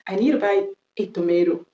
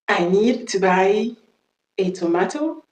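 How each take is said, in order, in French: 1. Elle est dite avec un accent américain. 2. Elle est dite avec un accent britannique. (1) "je viens de faire l'accent américain" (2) "on va faire l'accent british"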